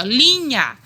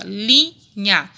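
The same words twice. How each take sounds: First: LINHA stretched in one sweep, louder first syllable; drawn-out word. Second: LINHA split into "li" and "nha"; syllable by syllable. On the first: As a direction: say "linha" long and connected. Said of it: "aqui eu falo assim". ("linha" alongada, sem separar) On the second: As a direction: break "linha" between its two syllables. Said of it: "Quantas sílabas tem?". ("linha" separada em sílabas: li, nha) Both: Shown as a demonstration.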